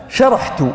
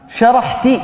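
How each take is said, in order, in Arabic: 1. الكلمة تنتهي بحركة u. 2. الكلمة تنتهي بحركة i. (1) "وهذه التاء تكون مضمومة" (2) "هكذا بالكسر"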